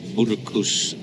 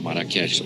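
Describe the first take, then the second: First: The name is said with a local pronunciation. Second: The name is said with an English pronunciation.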